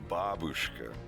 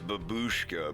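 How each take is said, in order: First: It is said with a Russian-style pronunciation. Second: It is said with an English-style pronunciation. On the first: The speaker calls it right. "but it's babushka" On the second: The speaker calls it wrong. "Everybody says babushka"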